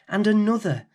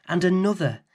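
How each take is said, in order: Both takes have the same delivery.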